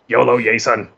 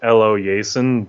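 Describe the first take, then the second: First: The name begins with a 'yo-lo' sound. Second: The name begins with an 'eh-lo' sound. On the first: The speaker calls it wrong. "every time I'm like YOLO" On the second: The speaker calls it right. "I know it's Elo Yason"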